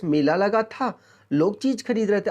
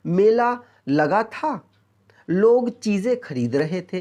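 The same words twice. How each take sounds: First: Said in the usual way. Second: Slow read with a clear pause after मेला लगा था; pause between sentences. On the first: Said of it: "अलग-अलग दो sentence है". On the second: Shown as a demonstration. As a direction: read मेला लगा था, then pause before लोग चीज़ें खरीद रहे थे. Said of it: "अल्प विराम क्यों लगाया". (दो वाक्यों के बीच ठहराव के साथ धीरे पढ़ना)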